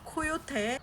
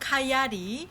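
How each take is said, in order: First: It is said as the Korean loanword ko-yo-te. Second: It is said the local Canadian way, ka-ya-ri.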